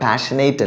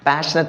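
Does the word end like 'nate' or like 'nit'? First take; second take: nate; nit. First: The last syllable is long, like 'nate'. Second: The last syllable is short, like 'nit'. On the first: The speaker calls it wrong. "പാഷനേറ്റ് അല്ല" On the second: The speaker calls it right. "പാഷനറ്റ് ആണ്"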